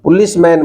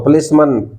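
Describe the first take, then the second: First: The last syllable has a full open 'a'. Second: The last syllable has a short reduced 'uh'. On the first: The speaker calls it wrong. "पुलिसमैन मत बोला करो" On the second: The speaker calls it right. "तो पुलिसमन"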